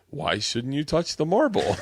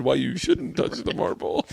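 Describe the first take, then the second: First: "Why shouldn't you touch the marble" as a slow, higher-pitched question; misread sign as question. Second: "Why you shouldn't touch the marble" read slowly as an explanatory heading; actual sign as statement. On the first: Retelling a friend's misreading of a museum sign, puzzled question. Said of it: "he thought the sign said". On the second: Correcting the misread museum sign, slow explanatory statement. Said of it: "But it said". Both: Retold or imitated.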